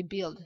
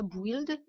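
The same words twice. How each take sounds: First: "build" as bild, short i; no w sound. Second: "build" as bwild; wrong w sound. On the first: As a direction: say "build" with nothing between b and i. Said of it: "mais build". (« build » prononcé bild, sans w) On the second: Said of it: "pas build". (« build » mal prononcé, bwild) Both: Shown as a demonstration.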